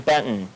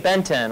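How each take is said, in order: First: The T in the middle is silent. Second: The T in the middle is pronounced. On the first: The speaker calls it right. "it's actually Benton. The T is actually silent" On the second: The speaker calls it wrong. "when people say, hey, Benton"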